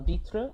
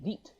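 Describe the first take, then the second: First: The word ends with a tr sound. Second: The word ends without the tr sound. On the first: This is the standard French form. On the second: This is the Creole form.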